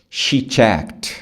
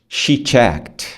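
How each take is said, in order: The two takes are said the same way.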